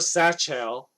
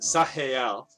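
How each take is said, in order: First: The middle consonant is a ch sound. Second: The middle consonant is a throaty German-style sound. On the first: "what most people would probably assume it is" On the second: "like the Germanic"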